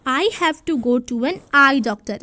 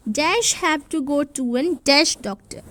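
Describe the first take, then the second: First: Slow, deliberate read with the blanks filled in; slow answer read. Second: Slow, each word laid out, saying dash for the gaps; slow read with blanks. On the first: Teacher reads the completed answer to children, slow and clear. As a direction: read the finished sentence slowly. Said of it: "इस तरीके से आ जाएगा". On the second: Teacher reads the fill-in sentence to children, slow and deliberate. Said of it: "अब इधर हमें दो चीज़ों में से लिखना है". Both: Shown as a demonstration.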